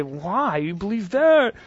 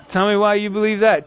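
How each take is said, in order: First: Scoffing disbelief, voice jumping up on that; incredulous scoff. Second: Genuinely curious, open and inviting; sincere question. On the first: Mocking a skeptic's view with an incredulous scoff. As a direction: sneer at their belief. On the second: Inviting a skeptic to explain, sincerely curious. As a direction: ask because you really want to know. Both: Shown as a demonstration. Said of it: "Two totally different things. Your manner matters".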